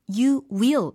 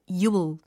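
First: Both words are said fully and separately. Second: The words merge into one short syllable. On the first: The speaker calls it wrong. "You will 말고" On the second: The speaker calls it right. "축약해서요. 발음에도 반영을 하는 거예요"

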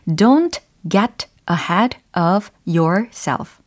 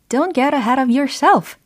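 First: It is said slowly. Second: It is said fast.

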